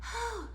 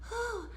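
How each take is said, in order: First: The sound is airy and breathy. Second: The same.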